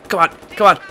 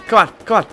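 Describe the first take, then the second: No difference in how they are said.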